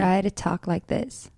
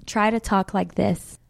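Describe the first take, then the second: First: Soft repeat of the line in a British accent; a learner's British accent, repeated; copying a British accent. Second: Crisp British-accented line, softer; British accent demo. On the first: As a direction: echo her British accent back. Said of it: "she's so much better than me". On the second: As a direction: model the phrase in a British accent. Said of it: "You wanna try? Say". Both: Shown as a demonstration.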